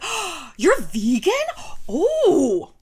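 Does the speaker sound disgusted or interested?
interested. The tone sounds curious and friendly. The speaker is open and curious about vegans. "It's very different"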